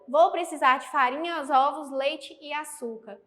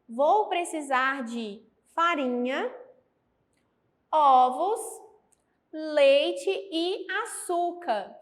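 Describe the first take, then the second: First: The listed items run together without pauses. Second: There are pauses between the listed items. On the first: The items blur together into a confusing phrase. The speaker calls it wrong. "Se eu não tivesse essas vírgulas empregadas aqui, ficaria" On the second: Flour, eggs, milk and sugar are separate items. The speaker calls it right. "A vírgula indica uma pausa"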